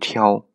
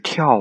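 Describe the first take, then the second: First: The word is said with a changed tone. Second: The word is said with its usual tone. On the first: The reading is changed so the line rhymes. "我读成泥蛙入户挑" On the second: This is the ordinary reading of the word. "泥蛙入户是跳啊"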